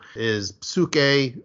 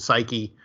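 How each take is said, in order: First: It is pronounced the Greek way. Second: It is pronounced the English way.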